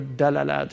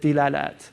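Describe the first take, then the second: First: The first vowel is an a sound. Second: The first vowel is an i sound. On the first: This is the form used by Eastern Arabs. "Eastern Arabs tend to say Dalalat" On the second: This is the form used in Mauritania. "Mauritanians use it with Dilalat"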